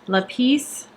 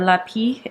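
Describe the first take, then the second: First: The final S is pronounced. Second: The final S is left silent.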